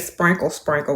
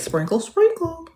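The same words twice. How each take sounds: First: It is said saucily, with an 'a' vowel. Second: It is said in a prim, bougie way.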